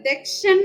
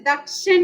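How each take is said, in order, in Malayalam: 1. ആദ്യ സ്വരം 'e' പോലെ ഉച്ചരിക്കുന്നു. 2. ആദ്യ സ്വരം ശുദ്ധമായ 'a' ആണ്. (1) "മലയാളത്തില് ദക്ഷൻ എന്ന് നമ്മൾ പറയുന്നു" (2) "സംസ്കൃതത്തിൽ ദക്ഷൻ എന്ന് തന്നെ പറയണം"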